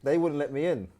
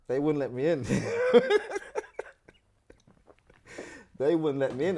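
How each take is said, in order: First: Said in the usual way. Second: Says it again breaking into a high laugh. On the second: Real, not acted. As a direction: laugh through the words at the memory. Laughing at the memory.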